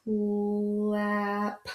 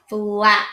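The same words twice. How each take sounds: First: "Flap," stretched soft as one; slow blend. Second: Said in the usual way. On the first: Shown as a demonstration. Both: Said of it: "We're saying it all together".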